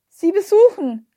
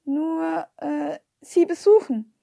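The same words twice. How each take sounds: First: Loud, high-pitched raised voice; calling out louder. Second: Slow, hesitant, searching for words; stammering. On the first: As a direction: call up to someone hard of hearing. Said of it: "rief ich jetzt lauter". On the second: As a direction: stammer it out haltingly with drawn-out pauses. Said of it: "stammelte ich". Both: A narrator's reading.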